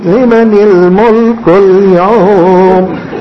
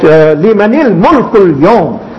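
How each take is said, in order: First: It is said sweetly, in a melodious tune. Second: It is said forcefully, with commanding authority. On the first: The speaker calls it wrong. "Now you read it in a sweet" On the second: The speaker calls it right. "they must be read like that also"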